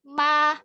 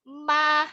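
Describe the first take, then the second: First: The mouth opens fully, giving a clear open a. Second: The mouth opens fully, giving a clear open a.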